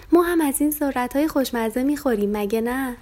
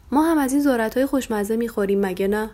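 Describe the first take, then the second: First: Higher, bouncy, skipping little lamb; bouncy and happy. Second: Said in the usual way. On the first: A narrator's reading. Lamb Farfari echoes dad's words while skipping, bouncy. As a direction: echo dad while hopping with joy. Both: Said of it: "فرفری جست و خیز کنان گفت".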